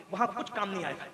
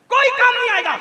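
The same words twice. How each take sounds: First: Low and very soft; subdued, grave preacher's aside; hushed warning. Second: High, loud preacher's cry; sudden full-voiced outburst; shouted warning. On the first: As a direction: warn them quietly, voice dropped right down. Warning said low, then cried. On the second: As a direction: hurl the warning at the crowd. Same warning repeated as a cry. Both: Real, not acted.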